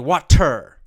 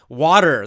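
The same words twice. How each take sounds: First: The middle consonant is a crisp T sound. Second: The middle consonant is a soft D sound. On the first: The speaker is trying to pronounce very clearly. "pronounce that with a very clear, strong T sound" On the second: This is how ordinary speakers say it. "We we pronounce it with a D"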